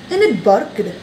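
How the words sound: It is said in an Indian accent.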